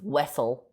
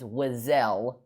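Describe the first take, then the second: First: The surname is said the commonly assumed way. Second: The surname is said the game's unexpected way. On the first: This is how the speaker assumed it was said. "I always thought it was" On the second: This is how the game says it. "she says her last name is"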